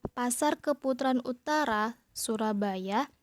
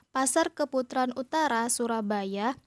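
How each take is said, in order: Both takes have the same delivery.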